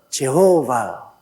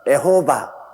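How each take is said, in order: First: The name begins with the syllable je. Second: The name begins with the syllable e. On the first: This is how Westerners say the name. "그 발음을 그들은 제호바" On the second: This is how Japanese speakers say the name. "일본 사람들은 에호바"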